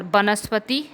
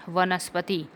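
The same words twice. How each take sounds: First: वनस्पति started with b in place of v; wrong pronunciation. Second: वनस्पति started with a v; correct pronunciation. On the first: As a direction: say वनस्पति as banaspati. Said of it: "नहीं होता". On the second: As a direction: say वनस्पति as vanaspati. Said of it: "होता है". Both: Shown as a demonstration.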